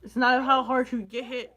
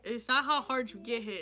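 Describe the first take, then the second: First: Louder, with a laugh through "it's not how hard you get hit"; laughing quote. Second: Said in the usual way. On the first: Real, not acted. Vlogger laughing at himself for fumbling a quote. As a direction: laugh out the half-remembered quote. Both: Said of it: "I forget the fucking quote".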